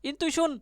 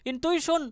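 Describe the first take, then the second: The two takes are said the same way.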